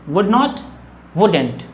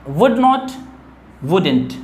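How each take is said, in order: No difference in how they are said.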